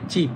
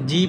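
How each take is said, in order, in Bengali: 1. শব্দটি একটি টেনসড ব্যঞ্জন দিয়ে শুরু হয়। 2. শব্দটি একটি সাধারণ ব্যঞ্জন দিয়ে শুরু হয়। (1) "এটা হবে চিপ" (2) "এটা জিপ হবে না"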